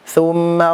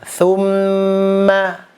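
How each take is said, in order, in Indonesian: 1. Bunyi m dipotong pendek dan cepat. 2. Bunyi m ditahan dalam waktu yang lama. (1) "itu kan kurang" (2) "dia ditahan. Jadi jangan buru-buru"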